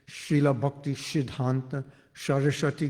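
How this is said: It is said with an Indian, Bengali-tinged accent. "That's the actual way to pronounce it. Well, a little Bengali there"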